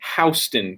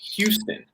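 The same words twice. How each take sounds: First: The first syllable sounds like 'house'. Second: The first syllable sounds like 'hue'. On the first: The speaker calls it right. "it is spelled like house" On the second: The speaker calls it wrong. "not Houston"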